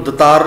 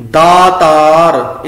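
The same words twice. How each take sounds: First: ਦਤਾਰ with a quick short a, da-taar; short first vowel. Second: ਦਾਤਾਰ slow and loud, daa-taar; long first vowel. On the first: Teacher warns against this reading, ਦਤਾਰ begun short. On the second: Teacher models the right reading, ਦਾਤਾਰ with long aa. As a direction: stretch both aa vowels in ਦਾਤਾਰ. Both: Shown as a demonstration. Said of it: "ਇਹਨੂੰ ਦਤਾਰ ਨਹੀਂ ਪੜ੍ਹਨਾ".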